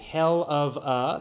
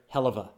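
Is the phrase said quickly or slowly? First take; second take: slowly; quickly. First: The words are said slowly and separately. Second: The words are said quickly, run together. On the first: "that's the slow way to say it" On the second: "usually we say it quickly, we put it all together"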